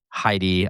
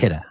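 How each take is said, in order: First: The name is said as Heidi. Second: The name is said as Hida. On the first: The speaker calls it wrong. "or Heidi" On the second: The speaker calls it right. "but it's also Hida"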